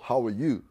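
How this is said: It is said in an American accent. "aprendí a decir las palabras, o sea, hablar el inglés americano"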